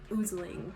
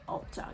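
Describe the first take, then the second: First: The word sounds like 'oozling'. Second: The word sounds like 'ulzzang'. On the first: The speaker calls it wrong. "they pronounced it oozling" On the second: The speaker calls it right. "but it's Altjang"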